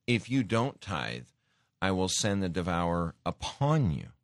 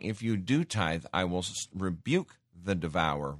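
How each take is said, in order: First: Said in the usual way. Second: "do" pressed hard and falling in "If you do tithe"; the corrected reading, with "do" pressed; stress on DO. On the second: Shown as a demonstration. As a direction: lean on "do" to set it against "don't". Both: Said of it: "He's saying".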